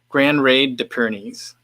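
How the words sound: It is said with an American accent. "I'm going to say it like an American"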